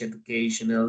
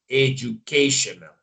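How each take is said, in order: First: It is said with Spanish sounds, no J sound. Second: It is said with English sounds and a J sound. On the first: "We could say yes in Spanish" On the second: "in English is like a J"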